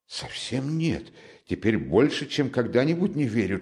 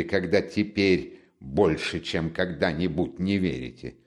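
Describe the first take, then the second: First: Higher-pitched, anxious-to-deny protest; mildly hurried denial, pitched up; hasty denial. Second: Measured, probing repetition; pointed echo. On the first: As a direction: deny it in a lifted, insistent voice. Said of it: "торопливо сказал Замётов". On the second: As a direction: repeat it back deliberately, pitched down. Raskolnikov throws the denial back. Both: A narrator's reading.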